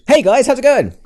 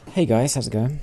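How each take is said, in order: First: It is said loudly with high energy. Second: It is said in a quiet, subdued way.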